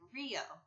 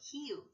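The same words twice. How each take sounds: First: It starts with an English R sound. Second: It starts with a breathy H-like sound. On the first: "instead of Rio" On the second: "They'll say Rio de Janeiro, Rio"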